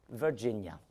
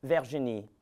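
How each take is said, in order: First: Put-on Virginia said the English way, in a French accent; English pronunciation. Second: Virginie said the French way, stress on the last syllable; French pronunciation. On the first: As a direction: follow with Virginia as the English form. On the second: Acted. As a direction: say Virginie as a French speaker would. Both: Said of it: "and that name is".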